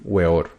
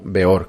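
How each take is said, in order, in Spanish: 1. El nombre empieza con un sonido w. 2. El nombre empieza con un sonido b.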